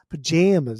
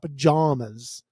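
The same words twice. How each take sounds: First: The middle vowel sounds like the vowel in jam. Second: The middle vowel sounds like the vowel in llama. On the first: The speaker calls it right. "with a hard A" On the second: The speaker calls it wrong. "It's not pajamas. It's not a llama"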